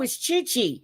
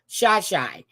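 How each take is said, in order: First: The name's vowel sounds like 'ee'. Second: The name's vowel sounds like 'eye'. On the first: "Chi Chi would be with an E" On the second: "I am saying Shy Shy because I'm thinking Chicago"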